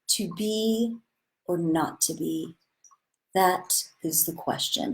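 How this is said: It sounds sincere and earnest, with integrity.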